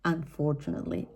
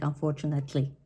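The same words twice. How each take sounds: First: Unfortunately as un-FOR-chuh-nut-lee; improved pronunciation. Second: Unfortunately with a full NATE-like vowel, un-for-chu-NAT-ly; old mispronunciation. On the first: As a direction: say "Unfortunately" carefully, stressing FOR. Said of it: "I hope I'm saying it right". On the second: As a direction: say "unfortunately" the mistaken way, sounding out "nat". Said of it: "I was pronouncing this word like". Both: Shown as a demonstration.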